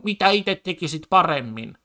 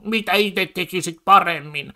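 First: Lightly voiced smug politician, a touch higher; mocking quote again. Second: Lightly voiced mocking politician, a bit higher; mocking quote of politicians. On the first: Streamer repeating the debaters' catchphrase, mildly mocking. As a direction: toss it off as a smug debate jab. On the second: Streamer mocking right-wing debaters' catchphrase, lightly voiced. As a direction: sneer the question back like a smug debater. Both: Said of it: "toi koko pointti tuolla on".

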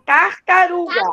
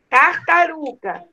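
First: Said in the usual way. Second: Slow syllable-by-syllable. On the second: Shown as a demonstration. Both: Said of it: "Qual é a sílaba que está faltando?".

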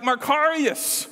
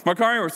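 First: High, drawn-out cheer of praise; hearty congratulations. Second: Mock salute to a rival; sarcastic congratulations. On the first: Acted. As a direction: celebrate someone's big success. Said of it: "when someone did really great". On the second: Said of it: "used really sarcastically".

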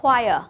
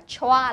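First: Choir said as "kwire", the ch turned into a w sound, louder; correct pronunciation. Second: Choa read as "chwa", with a "ch" sound; common wrong reading. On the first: Teacher corrects the mistaken reading for pupils, emphatic pronunciation. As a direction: firmly model choir as "kwai-uh". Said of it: "đọc là". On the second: Teacher warns pupils about a wrong reading, mock mistake. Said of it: "nhầm đọc cái này là âm chờ". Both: Shown as a demonstration.

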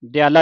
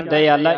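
First: ਦਿਆਲਾ without a separate i syllable; dropped I syllable. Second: ਦਿਆਲਾ with the i sounded after "da"; separate I syllable. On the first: Retold or imitated. Teacher reads the misprint in some booklets, ਦਿਆਲਾ as "dyaala". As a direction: say ਦਿਆਲਾ as "dyaa-laa". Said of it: "ਈੜੀ ਕੱਟੀ ਹੋਈ ਹੈ". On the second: Shown as a demonstration. Teacher gives the pure pronunciation, ਦਿਆਲਾ as "da-iaala". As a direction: say ਦਿਆਲਾ as "da-i-aa-laa". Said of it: "ਸ਼ੁੱਧ ਉਚਾਰਨ ਹੈ".

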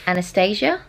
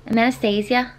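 First: Said in the usual way. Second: Tentative Manchester accent on the name; attempted accent. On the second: Shown as a demonstration. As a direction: try Anastasia in a put-on Manchester accent. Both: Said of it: "hard to say in an accent".

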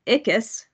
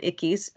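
First: Ickes said as ICK-us; first pronunciation. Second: Ickes said as ICK-eez; alternative pronunciation. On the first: Presenter naming Harold Ickes to the commission, pronounced ICK-us. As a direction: say Ickes with a short, unstressed "us" ending. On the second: Presenter offering the other pronunciation of the name, ICK-eez. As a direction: say Ickes with a long "eez" ending. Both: Shown as a demonstration. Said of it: "also pronounced Ickes".

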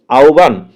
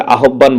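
First: আহ্বান said aubban, the হ turned into a glide before a doubled b; correct pronunciation. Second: আহ্বান said a-ho-bban, h and b each sounded; wrong pronunciation. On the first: Teacher models the correct reading for the class. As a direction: model the right sound of আহ্বান. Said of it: "এটার উচ্চারণটা হবে আহ্বান". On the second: Teacher mimics how many students mispronounce the word. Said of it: "এটা আহ্বান না". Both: Shown as a demonstration.

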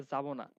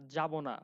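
First: যাবো না with a z-like first sound; dialect pronunciation. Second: Said in the usual way. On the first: Shown as a demonstration. Teacher showing local speech, যাবো না starting with z. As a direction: say যাবো না as zabo na. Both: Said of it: "এটাই বলে".

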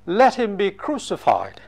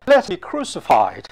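First: Said in the usual way. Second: A stronger, pushier demand; crowd shouting louder. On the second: A narrator's reading. Crowd outshouting Pilate, rising insistence. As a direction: press the cry harder. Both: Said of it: "But they shouted all the louder".

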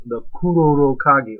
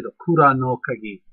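First: Kuroro Kagi, run together with no separate "no"; common misnomer. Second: Kura no Kagi, with "Kura" ending in "ah" and a separate "no"; corrected pronunciation. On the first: Naming the tool by its popular name, common mispronunciation. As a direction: say Kuroro Kagi as people miscall it. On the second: Correcting himself for viewers on the tool's name, careful pronunciation. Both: Shown as a demonstration. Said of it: "or actually the Kura no Kagi".

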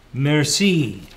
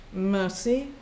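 First: Put-on clumsy French accent, a touch louder; an Englishman mangling French Merci; bad French accent. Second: Emotionless. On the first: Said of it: "with a bad accent, bad French accent". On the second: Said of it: "also without emotion or recognition". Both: A narrator's reading.

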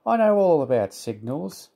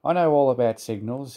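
First: Higher-pitched airy boast; self-important, breezy know-it-all. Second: Mildly cross muttered boast; understated, grumpy self-assurance; cross puffing. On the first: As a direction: brush it off airily. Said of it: "said Percy airily". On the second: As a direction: puff it out a touch crossly. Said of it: "he puffed crossly to his trucks". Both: A narrator's reading.

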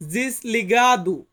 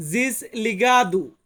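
First: Slow, syllable by syllable জিসলিগাদু; slow Portuguese word. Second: জিসলিগাদু repeated slowly, zhis-lee-GAH-doo; slow repeated word. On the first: Teacher slowly models জিসলিগাদু, careful Portuguese. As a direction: say জিসলিগাদু slowly as desligado, zhis-lee-GAH-doo. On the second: Teacher repeats জিসলিগাদু slowly, careful Portuguese. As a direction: drag out জিসলিগাদু once more. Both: Shown as a demonstration. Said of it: "Portuguese ভাষাতে বলবো".

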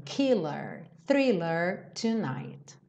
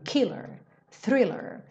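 First: "killer, thriller tonight" following the rhythm of the song, both syllables carried evenly; song rhythm stress. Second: "Killer, thriller" with the stress on the first syllable and the second syllable tucked away. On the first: Teacher contrasting the song's rhythm with normal stress. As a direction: ride the beat of the song through "killer" and "thriller". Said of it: "como aqui a gente tem esse ritmo".

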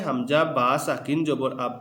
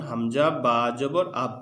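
First: হামজা বা সাকিন জবর আব, with সাকিন wrongly voiced; name সাকিন aloud between বা and জবর, then আব; wrong spelling-out demo. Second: হামজা বা জবর আব, with সাকিন left unspoken; correct joined spelling-out. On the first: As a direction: recite হামজা বা সাকিন জবর আব as the example to avoid. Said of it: "বলতে হবে না". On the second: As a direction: spell হামজা বা জবর, then blend into one closed syllable আব. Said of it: "মিলিয়ে একসাথে পড়তে হবে". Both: Shown as a demonstration.

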